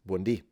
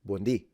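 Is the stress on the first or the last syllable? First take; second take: last; last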